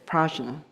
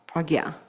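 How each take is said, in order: First: The middle consonant sounds like 'j'. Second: The middle consonant sounds like 'gy'. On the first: The speaker calls it wrong. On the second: The speaker calls it right.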